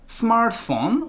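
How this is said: The pitch rises at the end. "smartphone 올려주시라"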